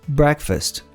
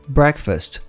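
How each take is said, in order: The two takes are said the same way.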